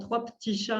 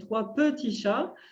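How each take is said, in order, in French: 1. C'est dit avec un accent français standard. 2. C'est dit avec un accent du Sud. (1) "qui ne disent pas généralement" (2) "les personnes qui ont un accent du Sud"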